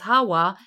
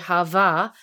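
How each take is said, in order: First: The middle consonant is a W sound. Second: The middle consonant is a V sound. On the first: This is the ancient Hebrew pronunciation. "in ancient Hebrew, it would have been pronounced as Hawa" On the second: This is the modern Hebrew pronunciation. "in modern Hebrew, they say Hava"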